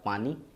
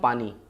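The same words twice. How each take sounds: First: The final vowel is held long. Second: The final vowel is cut short. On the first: The speaker calls it right. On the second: The speaker calls it wrong.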